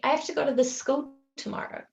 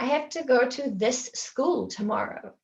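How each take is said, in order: First: The two s sounds merge into one longer sound. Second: The two s sounds are said separately. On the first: The speaker calls it right. "We'd say, ... So the sound is a little bit longer" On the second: The speaker calls it wrong. "we wouldn't say"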